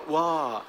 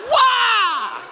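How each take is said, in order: First: Weak mumbled wah; limp wah. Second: High loud karate yell; full-force kiai; karate shout. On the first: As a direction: say it with no energy. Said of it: "You can't just go". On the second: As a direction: put your whole body into it. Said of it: "You have to go". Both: Shown as a demonstration.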